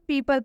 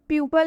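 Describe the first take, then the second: First: The first syllable sounds like 'pee'. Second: The first syllable sounds like 'pyoo'. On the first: The speaker calls it right. "इसे हम पीपल पढ़ रहे हैं" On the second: The speaker calls it wrong. "इसे हम प्यूपल नहीं पढ़ रहे हैं"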